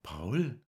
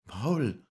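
First: High, questioning rising call of the name; Lisei's voice. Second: High, loud falling call of the name; Lisei calling. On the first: Lisei answers Paul hesitantly, high rising voice. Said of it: "sagte sie dann". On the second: Lisei startled by Paul's proposal, high loud call. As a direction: cry out Paul high and loud. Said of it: "rief sie". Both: Acted.

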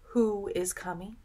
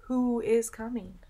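No difference in how they are said.

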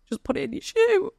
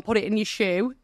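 First: Repeated much higher, urgent and pleading; urgent high-pitched repeat of the nurse's advice. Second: Said in the usual way. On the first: Retold or imitated. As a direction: say it again way up high, pressing the point.

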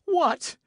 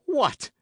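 First: Very high, loud cry of amazement; greater astonishment. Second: Loud, high-pitched cry of surprise; astonished. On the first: D'Artagnan cries out on seeing the second witness, utterly astonished. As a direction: exclaim at the top of your pitch, amazed. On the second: D'Artagnan cries out on learning Porthos is a witness, astonished. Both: A narrator's reading. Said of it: "in an accent of greater astonishment than before".

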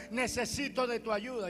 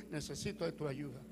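First: Old man's plea, lightly voiced; old man's prayer. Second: Low, soft echo of a prayer; murmured echo. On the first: Old man praying in church, lightly voiced plea. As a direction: plead for help, near the usual voice. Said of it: "El anciano decía". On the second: Retold or imitated. Himself copying the old man's prayer, low murmur. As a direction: repeat it under your breath, much lower. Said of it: "Yo digo".

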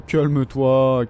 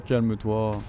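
First: Calme-toi stretched very slow and firm; mock soothing, drag out calme-toi; slow teasing hush; drawn-out calme-toi. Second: Said in the usual way. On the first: Soothing the enemy player mockingly.

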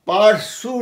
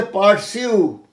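First: পারসু as par-soo, no glide; wrong pronunciation. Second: পারসিউ as par-syu, glide after S; correct pronunciation. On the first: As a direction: say পারসু with a plain oo. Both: Shown as a demonstration. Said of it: "পারসু নয়".

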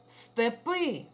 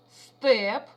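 First: "степи" with the stress on the final И; stress on final syllable. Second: "степ" said loud with a full, clear Е; stress on Е. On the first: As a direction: lean on the last vowel in "степи". (наголос на И в слові «степи») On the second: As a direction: punch the Е in "степ" as a teaching example. (чітке наголошене Е в слові «степ») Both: Shown as a demonstration. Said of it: "А ось і приклади".

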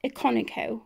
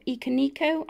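First: Iconico stressed on its second syllable, i-CON-ico; first pronunciation guess. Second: Iconico stressed on NI, ee-kuh-NEE-ko; alternative pronunciation guess. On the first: Vlogger unsure of a book title, Iconico said as i-CON-ico. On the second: Vlogger trying another reading of a title, Iconico as ee-kuh-NEE-ko. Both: Shown as a demonstration. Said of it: "I don't know how you pronounce it".

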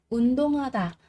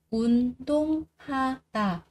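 First: Said in the usual way. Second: 운동하다 slowly split as 운-동-하-다; syllable by syllable. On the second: Shown as a demonstration. Teacher drilling learners on 운동하다, slow and separated. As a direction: say each syllable of 운동하다 apart, drawn out.

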